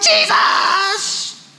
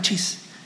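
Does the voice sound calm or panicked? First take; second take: panicked; calm. First: It is said in a panicked, urgent voice. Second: It is said in a calm, polite voice.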